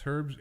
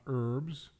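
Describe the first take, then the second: First: The h at the start is pronounced. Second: The h at the start is silent. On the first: The speaker calls it right. "That's herbs, H E R B S" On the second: The speaker calls it wrong. "It's not herbs. That's not how you pronounce it"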